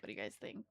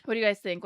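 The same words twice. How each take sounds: First: Whispered "What do you guys think?" almost inaudibly. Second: Said in the usual way. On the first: Shown as a demonstration. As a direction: breathe the question out without voice. Repeats the question different ways.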